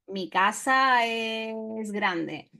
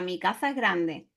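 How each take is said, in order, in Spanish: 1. La s en casa suena como s. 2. La s en casa suena como th. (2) "Con ceceo sería"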